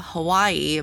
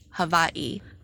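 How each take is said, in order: First: A W sound, with no break before the end. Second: A V sound, with a short break before the end. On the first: This is the usual English pronunciation. "in English, you know, we pronounce it Hawaii" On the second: This is the traditional Hawaiian pronunciation. "you pronounce the W as a V, and the apostrophe signifies a pause"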